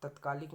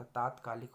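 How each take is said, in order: First: तत्कालिक with short 'tat'; wrong form. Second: तात्कालिक with long 'taat'; correct form. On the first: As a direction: keep the first vowel of तत्कालिक short. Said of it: "नहीं होता". (तत्कालिक, पहला 'त' छोटा) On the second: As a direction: stretch the first vowel of तात्कालिक. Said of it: "होता है". (तात्कालिक, पहला 'ता' लंबा) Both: Shown as a demonstration.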